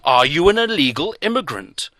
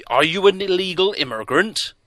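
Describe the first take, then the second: First: Loud, insistent repeat of the question; pressing. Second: Loud, higher accusing question. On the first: Doctor pressing closer, loud insistent demand. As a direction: lean in and demand an answer. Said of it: "He pressed closer". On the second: Doctor pressing the stranger, loud accusing question. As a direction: press him hard with the question. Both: A narrator's reading.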